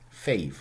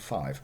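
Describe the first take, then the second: First: The vowel sounds like 'ay'. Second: The vowel sounds like 'eye'. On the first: This is the older, early modern pronunciation. "that's Shakespeare. Fave" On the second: This is the modern pronunciation. "not five"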